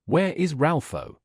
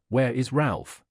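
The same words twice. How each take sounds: First: Slow, drawn-out and eerier; more unearthly voice. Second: A touch of something not quite human; lightly voiced ghostly old man, eerie; unearthly voice. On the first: Old man repeats the question, slower and eerier. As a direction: stretch "Ralpho" out slowly, more ghostly. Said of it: "in an accent still more preternatural". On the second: Old man asks for Ralph, lightly unearthly. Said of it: "voice that did not seem to belong to a human creature". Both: A narrator's reading.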